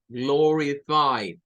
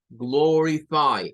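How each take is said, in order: First: "Glorify" said very slowly, three clear syllables. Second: Said in the usual way. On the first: Shown as a demonstration. Teacher sounding out "Glorify" syllable by syllable. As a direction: stretch out "Glorify". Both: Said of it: "Esta tiene tres sílabas".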